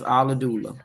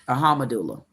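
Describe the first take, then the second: First: The word has no 'h' sound after the start. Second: The word has an 'h' sound after the start. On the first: The speaker calls it wrong. "I pronounce it as Aladula. Nope, that wouldn't be Aladula" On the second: The speaker calls it right. "because it's a ham. It's ah aha ahamadula"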